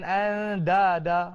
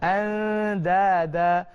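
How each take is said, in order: First: The d sound is hard and heavy. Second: The d sound is soft and light. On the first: The speaker calls it wrong. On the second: The speaker calls it right. "Dia bunyi lembut"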